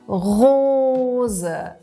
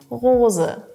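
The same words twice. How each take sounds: First: The R sound is strongly exaggerated. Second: The R sound is toned down and natural. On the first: "du startest übertrieben mit" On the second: "kannst du das ein bisschen runterschrauben"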